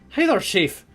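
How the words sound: It is said in a put-on character voice.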